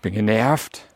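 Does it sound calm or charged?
charged. It is said with an irritated charge.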